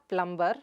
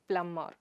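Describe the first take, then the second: First: The b sound is pronounced. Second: The b sound is silent. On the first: The speaker calls it wrong. "It's not plumber" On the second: The speaker calls it right. "The b sound is silent there"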